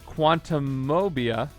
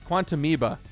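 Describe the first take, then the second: First: The ending is said like 'phobia'. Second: The ending is said like 'amoeba'. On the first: The speaker calls it wrong. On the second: The speaker calls it right. "That's how you say it because it's like an amoeba"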